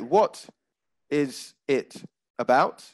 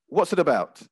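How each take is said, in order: First: The words are said separately with breaks. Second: The words run together like one word. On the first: "I didn't say" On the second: "It was all said as if it was one word"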